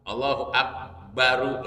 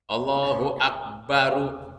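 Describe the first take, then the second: First: The final r is followed by a u vowel. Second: The same.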